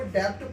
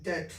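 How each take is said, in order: First: डेप्ट with the B said aloud as P, the wrong way; the mistaken version for the class; wrong pronunciation. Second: डेट with a silent B, no P at all; the correct version for the class; correct pronunciation. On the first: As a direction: say डेप्ट with a sounded P, as pupils wrongly do. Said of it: "लेकिन डेप्ट सही उच्चारण नहीं है". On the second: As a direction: say डेट cleanly, rhyming with late, the B silent. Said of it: "उच्चारण सही क्या है?". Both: Shown as a demonstration.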